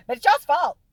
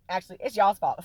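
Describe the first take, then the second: First: Y'all's shouted high and loud in mock accusation; playful loud blame. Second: Y'all's stressed but at a milder level; calmer restatement. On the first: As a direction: hurl the blame, teasing. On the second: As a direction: settle into it, still teasing. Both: Shown as a demonstration.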